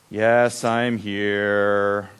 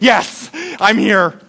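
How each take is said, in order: First: It sounds cool, flat and unenthusiastic. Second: It sounds fairly excited and upbeat.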